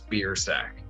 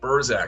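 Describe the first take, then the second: First: The name is said harshly, as beer plus sack. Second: The name is said softly, ending in a soft zak. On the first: This is the name's real pronunciation. The speaker calls it right. "It is the harshest pronunciation" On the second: Others adjust it to sound fancier. The speaker calls it wrong. "make it sound less harsh ... something that sounds fancier"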